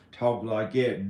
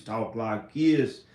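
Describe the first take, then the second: First: A second country twang; another country accent. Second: One version of a country accent. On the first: Vlogger comparing different country accents, another country accent. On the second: Vlogger comparing different country accents, country accent. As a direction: say it with a country twang. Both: Shown as a demonstration. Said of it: "different country accents".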